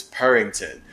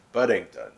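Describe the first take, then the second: First: Purrington with a strong r-coloured vowel; upfront pronunciation. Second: Puddington with a short vowel and a d; sitting back. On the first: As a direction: push Purrington right to the front. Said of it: "like, really upfront". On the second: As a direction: say Puddington comfortably back in the mouth. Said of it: "That sits back more". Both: Shown as a demonstration.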